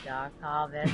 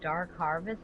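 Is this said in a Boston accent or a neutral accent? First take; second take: Boston; neutral. First: It is said in a Boston accent. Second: It is said in a neutral accent. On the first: "accidentally used my Boston accent" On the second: "it said Dark Harvest"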